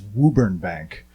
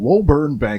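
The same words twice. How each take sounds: First: The town name has the local Massachusetts pronunciation. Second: The town name has a non-local, outsider pronunciation. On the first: The speaker is from the area. The speaker calls it right. "which is how we pronounce it in Massachusetts" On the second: The speaker is not from the area. The speaker calls it wrong. "I'm calling from Woburn Bank. And they're like, you're not from Woburn Bank"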